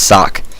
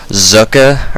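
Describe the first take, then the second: First: It begins with an s sound, like sock. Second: It begins with a z sound, ending uh. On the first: This is how Americans would read it. "which in America would be pronounced sock" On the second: This is how the player himself says it. "try to pronounce it the way I think he says it's pronounced"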